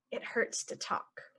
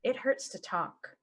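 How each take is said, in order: First: Whispered, as if talking hurts. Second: Said in the usual way. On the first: Shown as a demonstration. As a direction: whisper it like a sore throat. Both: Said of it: "normal then whispered".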